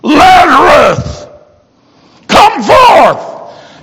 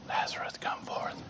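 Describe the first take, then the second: First: It is said loudly, in a big voice. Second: It is said quietly, in a normal voice.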